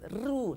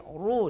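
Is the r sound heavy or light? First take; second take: light; heavy. First: The r is pronounced light and thin. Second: The r is pronounced heavy and full. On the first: The speaker calls it wrong. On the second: The speaker calls it right. "ru ditebalkan"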